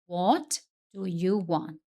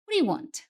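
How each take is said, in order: First: Each word is said slowly and separately. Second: The words run together as one block. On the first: "Se eu falar bem devagar, fica fácil perceber cada palavra" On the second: "Conversa natural, isso geralmente vira algo muito mais próximo de"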